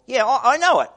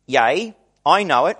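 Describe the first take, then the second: First: "Yeah, I, I know it" tossed off higher and a bit louder, like a buddy; casual modern paraphrase. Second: Said in the usual way. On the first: Retold or imitated. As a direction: say it like a friend brushing off the news.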